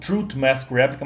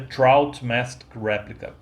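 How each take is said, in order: First: The first word sounds like 'truth'. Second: The first word sounds like 'trout'. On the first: The speaker calls it wrong. "eu pronunciei o nome do disco como Truth Mask Replica" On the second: The speaker calls it right. "mas na verdade é Trout Mask Replica"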